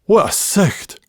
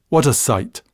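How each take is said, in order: First: Scots sicht with a throaty ch, higher pitch; quoting mum in broad Scots; Bathgate accent. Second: Said in the usual way. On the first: Retold or imitated. Mother scolding son's scruffy clothes, Bathgate accent. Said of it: "pronouncing in her Bathgate accent".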